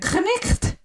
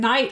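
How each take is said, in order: First: It is said with a k and a ch sound. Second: It is said without a k or ch sound. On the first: This is how it was said long ago. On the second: This is the modern pronunciation.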